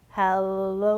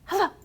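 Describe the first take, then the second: First: Hello is said slowly. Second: Hello is said quickly.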